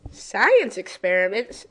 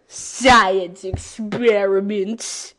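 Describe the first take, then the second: First: Said in the usual way. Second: Slow, louder, stretched-out reading; drawn out. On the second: Acted. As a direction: drag out every syllable. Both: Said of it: "Why'd I say it like that?".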